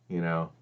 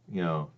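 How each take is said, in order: Both takes have the same delivery.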